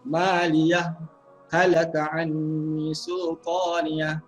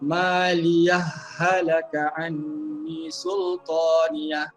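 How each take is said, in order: First: A brief break without breath follows 'maliyah'. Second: The final h merges straight into 'halaka'. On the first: "berhenti seketika"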